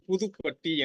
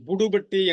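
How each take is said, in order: First: The second syllable starts with a soft th. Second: The second syllable starts with a hard d. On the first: The speaker calls it right. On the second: The speaker calls it wrong.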